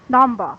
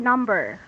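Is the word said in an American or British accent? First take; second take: British; American. First: The final r is soft, almost not heard. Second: The final r sound is clearly pronounced. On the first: "For British, they say number" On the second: "when American, they say number"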